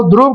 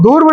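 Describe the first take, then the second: First: ध्रुव said "dhruv", r joined right onto dh; correct pronunciation. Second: ध्रुव said as "dhurv", the r after the u; "dhurv", the mispronounced ध्रुव; wrong pronunciation. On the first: Teacher models the correct ध्रुव for students, lower and careful. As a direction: clean "dhruv", r cluster after ध. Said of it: "ध्रुव कहिए". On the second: Teacher mimics students' wrong ध्रुव, sounds swapped. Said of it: "ध्रुव नहीं बाबू". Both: Shown as a demonstration.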